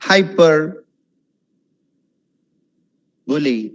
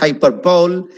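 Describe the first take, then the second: First: The ending sounds like the word 'bully'. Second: The ending sounds like the single word 'bowl'. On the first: The speaker calls it right. "It's hyper bully" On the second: The speaker calls it wrong. "it's not hyperbole"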